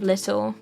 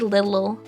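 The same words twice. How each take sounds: First: The word sounds British, with a crisp middle t. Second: The word sounds American, with a soft middle t. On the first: "instead of little" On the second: "this is the Americanization. Have you noticed? I say little"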